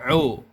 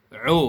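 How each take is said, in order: The two takes are said the same way.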